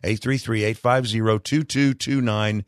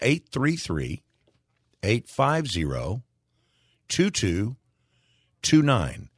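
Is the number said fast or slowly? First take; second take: fast; slowly. First: The number is said quickly. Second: The number is said slowly.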